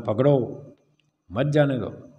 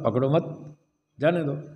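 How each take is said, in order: First: The pause comes after पकड़ो. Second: The pause comes after मत.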